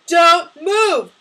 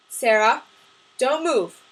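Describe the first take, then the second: First: Loud, high, forceful command; yelling. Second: Firm, controlled warning, no yelling; calm warning. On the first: Masked gunman threatening his victims, yelling. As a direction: yell DON'T MOVE, both words punched. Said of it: "the figure yelled". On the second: Sam warning Sarah about the gunman, calmly. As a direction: say DON'T MOVE firmly but keep it contained. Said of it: "Sam said calmly". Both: A narrator's reading.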